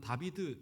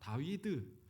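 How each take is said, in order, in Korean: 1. 가운데 자음은 v 소리입니다. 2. 가운데 자음은 w 소리입니다. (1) "독일어나 이렇게 와서는 다비드 이렇게 발음이 바뀐 건데" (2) "이 히브리어 원어를 읽으면 어, 다윗은 다위드 이렇게 발음합니다"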